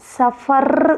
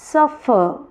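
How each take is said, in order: First: The stress is on the last syllable. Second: The stress is on the first syllable. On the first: The speaker calls it wrong. "ఇది suffer కాదు" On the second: The speaker calls it right. "Suffer ఇక్కడ వస్తుంది stress, ఆర్ పైన రావట్లేదు"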